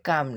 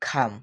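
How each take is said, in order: First: The first k sound has no puff of air. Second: The first k sound has a puff of air. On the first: The speaker calls it wrong. "কি হবে কাম না খাম" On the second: The speaker calls it right. "কি হবে কাম না খাম"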